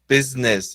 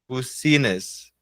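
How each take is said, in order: First: It is said with the English pronunciation, 'biz-ness'. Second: Every letter is read with Portuguese sounds. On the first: "e fala business" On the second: "se você lesse aportuguesado isso aqui, ficaria bucinas"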